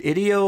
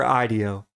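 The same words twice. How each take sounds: First: Ideo with a short i, "ID-ee-oh"; short-i pronunciation. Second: Ideo with a long i, "EYE-dee-oh"; long-i pronunciation. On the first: Weighing two pronunciations, "ideo" opening with "id". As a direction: say "ideo" like the start of "idiom". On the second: Offering the other pronunciation, "ideo" opening with "eye". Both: Shown as a demonstration. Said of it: "Is it ideo or ideo".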